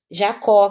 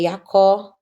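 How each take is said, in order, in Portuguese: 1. O nome começa com som de J. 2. O nome começa com som de I.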